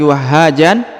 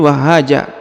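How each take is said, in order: First: The word ends with a final n sound. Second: The word ends with a plain a vowel. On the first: The speaker calls it wrong. "bukan lagi wahhajan" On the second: The speaker calls it right. "tapi wahhaja karena kita berhenti di sini"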